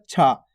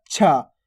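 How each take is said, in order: First: छा said simply, without force; simple छा. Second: छा pushed out with some force; forceful छा. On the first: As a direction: say an easy, unforced छा. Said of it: "simple इस प्रकार से होता है". (छा सीधा, बिना ज़ोर के) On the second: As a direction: put a little force into छा. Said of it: "थोड़ा देखो जोर लग रहा है". (छा थोड़ा ज़ोर लगाकर) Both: Shown as a demonstration.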